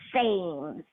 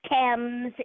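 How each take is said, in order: First: It is pronounced the way Brooklyn says it. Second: It is pronounced the way England says it. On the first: "I think they might pronounce it Thames Street in Brooklyn" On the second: "but it's Thames in England"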